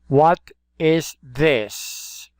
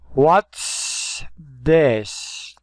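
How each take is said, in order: First: What and is are said as separate words. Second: What and is are joined into one syllable.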